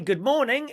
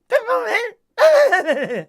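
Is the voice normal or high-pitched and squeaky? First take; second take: normal; squeaky. First: It is said in a normal voice. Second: It is said in a high-pitched squeaky voice.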